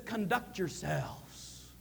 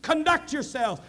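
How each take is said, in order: First: Softer, drawn out slowly and low; slow soft quote. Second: Higher and louder, "Conduct" hit hard; emphatic repeat. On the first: Paul urging citizens to behave, said slow and soft. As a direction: lay it down quietly, unhurried. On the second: Paul urging citizens to behave, repeated with force. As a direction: punch it out the second time. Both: Shown as a demonstration. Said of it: "when he says".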